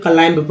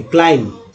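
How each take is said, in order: First: क्लाइंब as "ka-laimb", b sounded; mispronounced with B. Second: क्लाइंब as "klaim", no b; silent B. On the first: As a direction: say क्लाइंब the common wrong way, voicing the b. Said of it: "बहुत सारे लोग क्लाइंब पढ़ते हैं". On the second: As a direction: close क्लाइंब on the m, dropping b. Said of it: "बी को नहीं पढ़ना है". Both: Shown as a demonstration.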